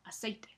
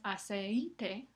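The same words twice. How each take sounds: First: The i is short, gliding after the e. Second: The i is long, in a separate syllable. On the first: The speaker calls it right. "sino aceite. La I se escucha solamente un poco" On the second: The speaker calls it wrong. "no es aceite"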